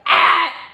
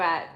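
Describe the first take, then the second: First: The word is yelled loudly. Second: The word is said at normal volume.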